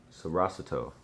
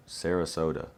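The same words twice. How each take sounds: First: "Sarasota" tried as sə-RAH-sə-toh, stress on the second syllable; unsure pronunciation. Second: "Sarasota" said as seh-rə-SOH-tə, stress on SOH; corrected pronunciation. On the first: Puzzling over a fan's city name, unsure. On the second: Fixing his reading of a fan's city, correct. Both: Real, not acted. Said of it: "What is that word?".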